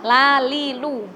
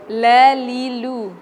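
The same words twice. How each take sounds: First: Lalilu with a light, ordinary l; plain la. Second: Lalilu with a heavy, thick l; wrong reading. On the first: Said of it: "La biasa ya". (lalilu dengan la biasa) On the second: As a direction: darken the l in lalilu. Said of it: "orang baca tuh gini". (bacaan lalilu yang salah, la tebal) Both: Shown as a demonstration.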